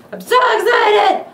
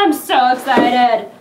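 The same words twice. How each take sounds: First: High, loud, shouted excitement; excited shout. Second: Sung excitement. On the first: Real, not acted. Unboxer shouting his excitement at the camera. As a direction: yell it out in pure glee. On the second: Pretend. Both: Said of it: "If I make weird noises".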